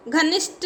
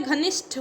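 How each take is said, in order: First: घनिष्ठ ending in unaspirated 't', ghanisht; wrong pronunciation. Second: घनिष्ठ ending in aspirated 'th', ghanishth; correct pronunciation. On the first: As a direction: drop the breath from the ठ of घनिष्ठ. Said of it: "नहीं होता है". (घनिष्ठ के अंत में 'ट' बोलें) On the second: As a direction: puff out the ठ of घनिष्ठ. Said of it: "होता है". (घनिष्ठ के अंत में 'ठ' बोलें) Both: Shown as a demonstration.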